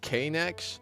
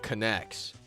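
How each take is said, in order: First: The first letter is spoken as 'kay'. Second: The word starts with a 'con' sound. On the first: "I like saying K-Nex because there's like an apostrophe in the K" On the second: "it's supposed to sound like connect"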